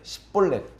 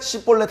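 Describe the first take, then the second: First: The first consonant is a plain s. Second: The first consonant is a tense s. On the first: The speaker is from Ephraim. "에브라임 사람은 십볼렛 십볼렛 쌍시옷이 안 되는 거예요" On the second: The speaker is from Gilead. "길르앗 사람들은 씨볼렛 씨볼렛 할 수 있는데"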